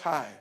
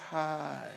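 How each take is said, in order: First: The word is said quickly and cut short. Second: The word is stretched out and held long. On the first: It is an ordinary greeting. "everyone says hi and it's gone" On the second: The person is showing special interest. "this person's hi is very long. It's prolonged"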